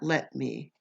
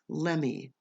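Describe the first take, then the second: First: The two words are said fully and separately. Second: The two words are blended into one quick word. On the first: The speaker calls it wrong. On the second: The speaker calls it right.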